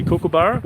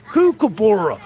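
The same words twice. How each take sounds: First: Said in the usual way. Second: Exaggerated American accent, pitched up high and swooping down; hammed-up American pronunciation of kookaburra. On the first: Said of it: "you say kookaburra". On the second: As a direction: mimic an American saying kookaburra with a big, punched-up swoop. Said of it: "You guys over there in America, you say".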